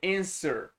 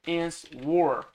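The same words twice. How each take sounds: First: The word is said without a W sound. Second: The word is said with a W sound. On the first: The speaker calls it right. "como se não tivesse W aqui" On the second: The speaker calls it wrong. "Aqui você não pronuncia tipo answer"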